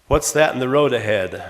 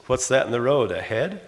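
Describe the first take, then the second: First: "that" punched, falling at the end; "What's THAT in the road ahead?" with a falling close; stress on that. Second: "road" lifted, tune rising at the end; "What's that in the ROAD ahead?" as a rising question. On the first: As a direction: hit "that" hard, let the question drop. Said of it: "For example". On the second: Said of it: "they're both questions". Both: Shown as a demonstration.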